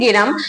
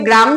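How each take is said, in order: First: An e vowel separates the g and r. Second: The g and r sounds are joined directly. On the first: This is a changed form of the word. "আর কেউ বলে গেরাম" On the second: This is the original form of the word. "আমরা বলি গ্রাম"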